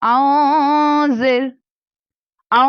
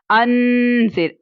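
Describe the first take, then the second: First: आ with the n hidden in the nose; slow nasal आ, ikhfa style. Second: अन with a full, open n sound; slow अन with a clear n. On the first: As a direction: hum आ through the nose, no clear n. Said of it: "अगर मैं पढ़ूंगी आ". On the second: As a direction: say अन with the n fully pronounced. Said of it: "इस तरह अन पढ़ूंगी". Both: Shown as a demonstration.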